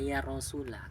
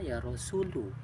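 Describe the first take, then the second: First: The noun ends with an 'a' vowel. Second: The noun ends with a 'u' vowel. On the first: The speaker calls it right. "harus dibaca ya Rasulah" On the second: The speaker calls it wrong. "tidak boleh dibaca ya Rasulu"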